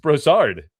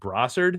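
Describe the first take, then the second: First: The name is said with a fancy flourish. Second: The name is said in a plain way. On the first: The speaker calls it right. "you got a little flair" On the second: The speaker calls it wrong. "Dustin said his name was like Brossard"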